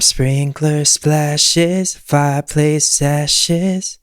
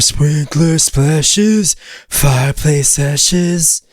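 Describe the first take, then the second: First: The voice sounds bright and twangy. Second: The voice sounds dark without twang. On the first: "adding all of this extra twang" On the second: "as opposed to"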